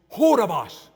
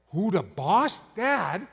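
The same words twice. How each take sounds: First: Loud, higher mock broken English; broken English accent. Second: Lightly imitated kids asking Dad, rising at the end; kids' voices. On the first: Exasperated guide questioning the husband, broken English accent. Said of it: "real broken English accent". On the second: Kids relaying the guide's question to Dad, lightly mimicked. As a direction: echo the guide's words as a child would. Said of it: "They said".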